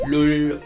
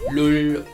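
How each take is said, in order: First: The vowel is rounded, like oo. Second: The vowel is rounded, like oo.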